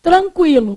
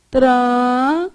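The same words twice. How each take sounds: First: Said in the usual way. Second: "Tranquilo" slow, with gaps between syllables. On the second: Shown as a demonstration. Teacher checks how students separated it, syllable by syllable. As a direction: stretch "Tranquilo" into tran, qui, lo. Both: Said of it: "como é que você separou?".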